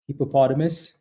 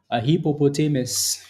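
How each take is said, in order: First: Said in the usual way. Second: Hippopotamus with stress on TAY: hippo-po-TAY-mus; own pronunciation. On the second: Shown as a demonstration. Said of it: "I always called it a hippopotamus".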